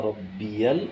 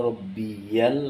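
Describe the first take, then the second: No difference in how they are said.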